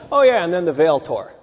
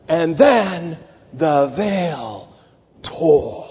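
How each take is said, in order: First: Tossed off casually, like a footnote; offhand aside. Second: Very slow and weighty, with a long pause before "tore"; dramatic pause. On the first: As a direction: say it as a throwaway aside. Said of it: "It can't be just an aside like". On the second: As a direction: let "And then the veil" hang, then land "tore". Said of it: "Like that". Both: Shown as a demonstration.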